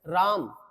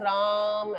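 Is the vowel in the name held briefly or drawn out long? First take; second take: briefly; drawn out. First: The vowel is held for a normal short time. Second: The vowel is stretched out long, like a call.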